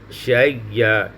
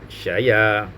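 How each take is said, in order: First: A doubled, lengthened y sound is heard in the middle. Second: A single y sound is heard in the middle. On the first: "diidghamkan ... dengan huruf ya yang sebelumnya" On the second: "menakalkan harkat hamzah itu kepada huruf sakin sebelumnya"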